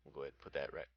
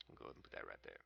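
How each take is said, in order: First: Said in the usual way. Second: Hushed mutter. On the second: Real, not acted. Repeats the placement line, hushed.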